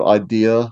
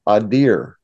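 First: It is said in Poe's own accent. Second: It is said in Osgood's Massachusetts accent.

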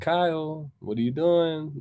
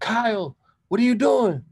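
First: It is said in a calm, unangry voice. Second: It is yelled in an angry voice.

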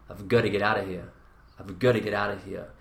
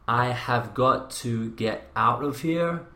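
First: The words are reduced and run together. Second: Each word is said separately and in full.

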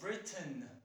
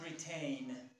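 First: The last syllable has a short reduced vowel. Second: The last syllable rhymes with the word rain. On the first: The speaker calls it right. "the pronunciation is like, for example, Britain" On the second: The speaker calls it wrong. "It is not Britain"

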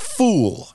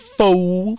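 First: The word ends with a clear L sound. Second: The word ends without any L sound. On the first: The speaker calls it wrong. "not fool, F-O-O-L" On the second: The speaker calls it right. "but like F-O-O"

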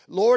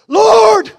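First: The word is said in a calm, even reading voice. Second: The word is cried out with strong emotion. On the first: A composed, formal address. The speaker calls it wrong. "You really think that's how Martha said it?" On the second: A grieving, frustrated plea. The speaker calls it right. "I believe she said this"

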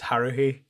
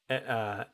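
First: The middle h sound is pronounced. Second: The middle h sound is dropped. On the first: The speaker calls it right. "it's Haruhi" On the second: The speaker calls it wrong. "it's not Harui"

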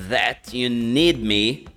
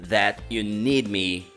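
The two takes are said the same way.

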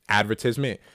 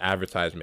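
First: It is said with a Jamaican pronunciation. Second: It is said with an American pronunciation.

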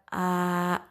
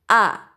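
First: The breath flows out freely on the sound. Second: The breath is held back before the sound. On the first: The speaker calls it wrong. "bukan a" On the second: The speaker calls it right. "tapi a"

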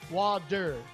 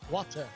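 First: It has an American D-like sound. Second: It has a clear British T sound.

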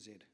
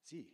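First: The letter is said the non-American way, "zed". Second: The letter is said the American way, "zee".

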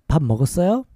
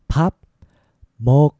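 First: The phrase is said at a faster pace. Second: The phrase is said at a slower pace.

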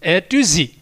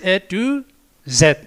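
First: The letter Z is said as zee. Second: The letter Z is said as zed.

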